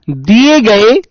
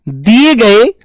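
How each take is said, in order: Both takes have the same delivery.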